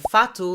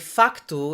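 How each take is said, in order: First: It is said without a c sound before the t. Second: It is said with a c sound before the t. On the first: "like they do in Brazil" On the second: "we would say facto in Portugal"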